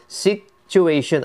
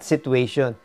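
First: The word is said with four syllables. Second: The word is said with three syllables. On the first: The speaker calls it right. "that is four syllables" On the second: The speaker calls it wrong. "not situation"

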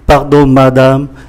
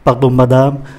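First: The words are spoken at a slow pace. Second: The words are spoken at a faster pace. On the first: "Tôi đọc chậm nhé" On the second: "Tôi xin đọc nhanh ạ"

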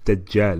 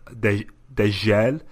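First: The first consonant has the standard 'j' sound. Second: The first consonant has the North African sound. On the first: The speaker calls it right. "I've been pronouncing it wrong all this time. It's Dejel, isn't it?" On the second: The speaker calls it wrong. "I was saying Dejel. ... That's the North African way of saying Jim"

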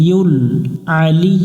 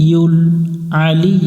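No difference in how they are said.

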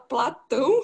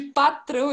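First: The word is said with an L sound. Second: The word is said with an R sound. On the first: The speaker calls it wrong. "ele fala Platão" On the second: The speaker calls it right. "De patrão"

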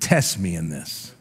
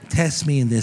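First: The words are said in a bold, forceful way. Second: The words are said in a weak, timid way. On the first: The speaker calls it right. "you got to say that with an attitude" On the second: The speaker calls it wrong. "Don't read that all wussy"

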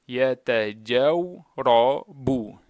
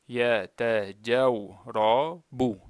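The two takes are said the same way.

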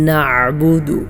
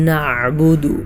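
No difference in how they are said.

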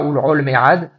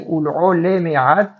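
First: The second word is said shortened. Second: The second word is said in full. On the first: The speaker calls it wrong. "et pas ul'ol mead" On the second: The speaker calls it right. "il faut faire attention à bien dire ul'ol emerad"

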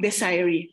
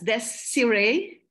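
First: The name is said like the word desire. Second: The name is said with French pronunciation. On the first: "from the word desire" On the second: "which is the right pronunciation. It is of a French origin"

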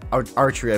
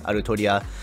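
First: The name is pronounced in a non-Japanese way. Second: The name is pronounced in a Japanese way. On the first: The speaker calls it wrong. "I just find Altria very weird to pronounce" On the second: The speaker calls it right. "I'm just going to stick with the Japanese way"

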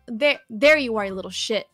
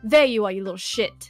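First: It is spoken in an American accent. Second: It is spoken in a British accent. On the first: "let me do the American first" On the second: "in a British accent"

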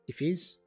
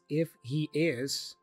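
First: The words are contracted, with the h dropped. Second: Each word is said fully and separately. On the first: "that gets reduced to" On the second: "We have this if he is"

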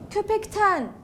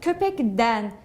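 First: The suffix starts with a voiceless t sound. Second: The suffix starts with a voiced d sound. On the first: The speaker calls it right. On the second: The speaker calls it wrong.

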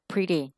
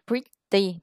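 First: The middle consonant is a soft D-like flap. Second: The middle consonant is a clear T sound. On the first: "thì đọc là pretty" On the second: "Thay vì đọc là pretty"

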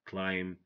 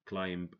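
First: The final B is silent. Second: The final B is pronounced. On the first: The speaker calls it right. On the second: The speaker calls it wrong. "So don't say"

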